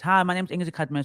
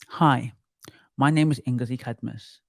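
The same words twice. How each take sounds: First: It is spoken fast and stumbling. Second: It is spoken slowly and evenly. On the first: The speaker calls it wrong. "I'm talking like this... I speak very fast" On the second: The speaker calls it right. "I am slow. I speak like this"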